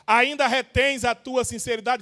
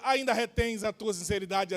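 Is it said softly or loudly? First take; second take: loudly; softly. First: It is said strongly and loudly. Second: It is said softly and weakly.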